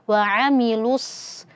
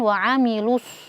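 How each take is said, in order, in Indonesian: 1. Huruf sad diucapkan dengan bibir tidak dibulatkan. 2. Huruf sad diucapkan dengan bibir dibulatkan. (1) "jangan dimonyongkan saat kita mengucapkan huruf sad ketika dia tidak dhammah" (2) "bukan wa'amilus"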